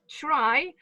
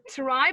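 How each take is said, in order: First: The word begins with a ch sound. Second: The word begins with a plain t sound. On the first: "they pronounce that with ch" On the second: "not only try"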